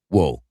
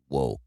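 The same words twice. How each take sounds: First: The word is said loudly. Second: The word is said quietly. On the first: The speaker calls it right. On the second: The speaker calls it wrong.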